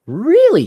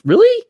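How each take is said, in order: First: Falling incredulous really. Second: Sharp high rising disbelief, louder; incredulous really. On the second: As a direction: shoot up in outraged disbelief. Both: Real, not acted. Disbelief at two decades claim.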